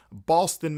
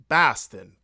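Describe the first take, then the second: First: Said in the usual way. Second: Loud attempt at a Boston accent. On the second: Shown as a demonstration. Host trying out the local accent for his trip, Boston accent. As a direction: hit the word Boston in a Boston accent. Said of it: "Boston accent".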